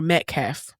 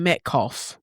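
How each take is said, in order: First: "Metcalf" said with a short 'a', met-kaff; alternative pronunciation. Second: "Metcalf" said with an 'aw' vowel, met-kawf; alternative pronunciation. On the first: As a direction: say "Metcalf" ending like "calf". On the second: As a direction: say "Metcalf" ending like "cough". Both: Shown as a demonstration. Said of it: "Sorry if I'm saying it wrong".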